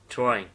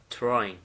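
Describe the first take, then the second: The two takes are said the same way.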